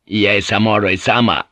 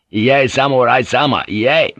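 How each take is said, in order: First: Said in the usual way. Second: Higher, firmer protest; sharper refusal. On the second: A narrator's reading. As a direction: refuse more sharply, voice raised a little. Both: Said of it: "Rodriguez repeated more sharply".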